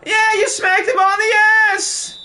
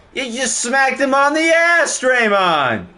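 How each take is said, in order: First: Very high, loud mock outrage; over-the-top yelled tease; squealing shout. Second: Much higher, louder mocking accusation; playful call-out; teasing. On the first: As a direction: shriek the accusation for laughs. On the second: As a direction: rib Draymond over the foul. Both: Real, not acted. Mocking a foul.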